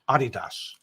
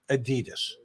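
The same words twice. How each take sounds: First: It is said with a German pronunciation. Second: It is said with an American English pronunciation. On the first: The speaker calls it right. "the real name, the German pronunciation, is Adidas" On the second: The speaker calls it wrong. "in this country, everybody pronounces it Adidas"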